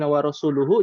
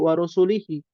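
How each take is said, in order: First: The word ends with the vowels u-hu. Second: The word ends with the vowels i-hi. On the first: God and His Messenger both disown the idolaters. The speaker calls it right. "yang harusnya" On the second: God disowns the idolaters and His Messenger. The speaker calls it wrong. "jadi wa rasulihi"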